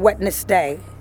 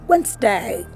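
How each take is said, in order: First: The word has three syllables, with the D sounded. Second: The word has two syllables, with the D silent. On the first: The speaker calls it wrong. "Don't go saying Wednesday" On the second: The speaker calls it right. "So that tells you that the D is silent"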